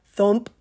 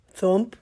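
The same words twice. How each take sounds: The two takes are said the same way.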